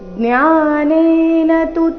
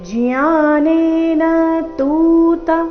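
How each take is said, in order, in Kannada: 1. 'tu' ನಲ್ಲಿರುವ ಸ್ವರವನ್ನು ಹ್ರಸ್ವವಾಗಿ ಇಡಲಾಗಿದೆ. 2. 'tu' ನಲ್ಲಿರುವ ಸ್ವರವನ್ನು ಎಳೆದು ದೀರ್ಘವಾಗಿ ಹೇಳಲಾಗಿದೆ. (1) "ಇಲ್ಲಿ ತು ರಸ್ವ ಬರಬೇಕು" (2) "ಈ ರೀತಿ ತೂ ನ ದೀರ್ಘ ಮಾಡಬಾರ್ದು"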